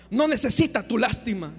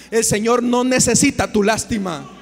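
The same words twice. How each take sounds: First: Said in the usual way. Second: Loud, emphatic rebuke; forceful declaration. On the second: Real, not acted. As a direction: thunder it at the congregation. Predicador rechaza la lástima con fuerza. (declaración fuerte y tajante)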